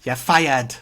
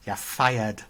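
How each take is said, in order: First: A lightly done, louder Alan Sugar catchphrase; firm boardroom dismissal, only hinted at; imitating Alan Sugar firing someone; Alan Sugar impression. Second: Said in the usual way. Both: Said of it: "your Alan Sugar impression".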